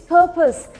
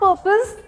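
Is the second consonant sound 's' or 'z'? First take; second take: s; z. First: The word has an 's' sound in it. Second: The word has a 'z' sound in it. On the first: The speaker calls it right. "it's purpose" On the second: The speaker calls it wrong. "It is not purpose"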